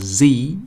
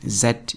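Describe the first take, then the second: First: The letter is said as zee, American style. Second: The letter is said as zed, British style.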